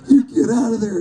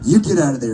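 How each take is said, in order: First: It is said in a scared, frightened way. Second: It is read in a plain, neutral way.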